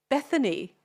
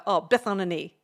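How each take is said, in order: First: "Bethany" said properly in three syllables, higher; slowed down. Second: "Bethany" run together as "Beth-on-a-knee"; said really fast. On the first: Asked by a rapper to repeat it, "Bethany" said clearly. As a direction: say "Bethany" cleanly as "BETH-a-nee", falling. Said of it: "Can you slow it down?". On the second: Giving a rapper her friend's name, "Bethany" rushed into "Beth-on-a-knee". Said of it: "I said it really fast". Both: Retold or imitated.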